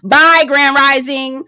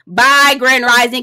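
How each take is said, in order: First: Slow, drawn-out mocking bye; drawn-out goodbye. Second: Slow, drawn-out dismissive bye; slow bye again. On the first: Dismissing Grand Rising with a slow drawn bye. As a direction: stretch the bye, dismissing him. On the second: Pretend. Second slow drawn farewell to Grand Rising. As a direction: say it slow, shooing him off. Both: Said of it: "mock farewell, repeated".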